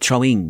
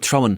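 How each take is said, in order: First: The ending is said fully as ing, with g. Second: The ending is said as in, without the g. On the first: The speaker has educated himself out of the local way. "I pronounce my ings" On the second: This is how a typical Dubliner talks. "I don't say in, in like uh, I'm throwing"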